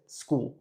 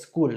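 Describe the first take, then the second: First: The word begins directly with the s sound. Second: The word begins with an added e sound. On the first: The speaker calls it right. "es school" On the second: The speaker calls it wrong. "la gente dice school, no es school"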